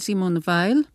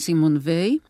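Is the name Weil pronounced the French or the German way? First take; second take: German; French. First: The surname is pronounced in a German way. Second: The surname is pronounced in a French way. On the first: The speaker calls it wrong. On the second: The speaker calls it right.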